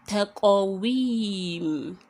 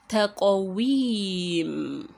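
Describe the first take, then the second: No difference in how they are said.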